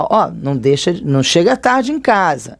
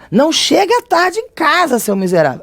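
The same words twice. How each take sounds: First: Said in the usual way. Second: Much higher, snapping scold of a fed-up parent; furious mock scolding at a kid; exasperated scolding. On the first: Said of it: "é uma coisa". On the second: Shown as a demonstration. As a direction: scold them for coming home late. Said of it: "Aí pronto, já basta, já tem a exclamação".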